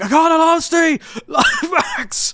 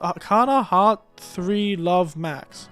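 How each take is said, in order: First: It is screamed loudly and excitedly. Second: It is said in a calm, normal voice.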